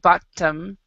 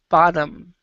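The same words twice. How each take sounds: First: The middle consonant is a clear T sound. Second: The middle consonant sounds like a D. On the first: The speaker calls it wrong. "So it's not bottom" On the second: The speaker calls it right. "you actually can can pronounce it like a D"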